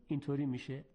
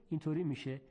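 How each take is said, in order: No difference in how they are said.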